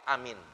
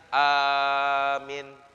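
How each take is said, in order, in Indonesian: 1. Vokal pertama dan kedua sama-sama pendek. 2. Vokal pertama panjang, vokal kedua pendek. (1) "pendek semua" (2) "A-nya panjang, minnya pendek"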